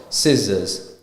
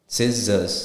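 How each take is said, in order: The two takes are said the same way.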